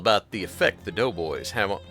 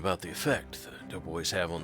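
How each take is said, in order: First: It is read in a put-on British voice. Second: It is read in a put-on noir detective voice. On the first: The speaker calls it wrong. "instead of the British voice" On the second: The speaker calls it right. "I should be doing this in a noir voice"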